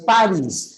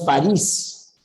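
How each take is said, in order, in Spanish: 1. La primera sílaba lleva el acento. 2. La última sílaba lleva el acento. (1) "Paris, palabra grave que termina en S, no se tilda" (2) "no es París"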